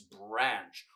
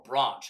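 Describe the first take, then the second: First: It is said in the speaker's plain, non-English accent. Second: It is said in an English accent.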